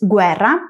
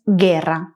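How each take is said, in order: First: The u is sounded, like gwe. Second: The u is silent, like ge. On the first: This is the Italian pronunciation. "En italiano es guerra" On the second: This is the Spanish pronunciation. "en español es guerra"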